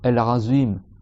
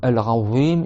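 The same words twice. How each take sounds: First: The consonant is a 'z' with clenched teeth. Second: The consonant is a soft 'th' with tongue out. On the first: The speaker calls it wrong. "ils font un za, za, un zay" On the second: The speaker calls it right. "au lieu de dire"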